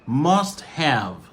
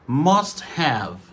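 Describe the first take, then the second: The two takes are said the same way.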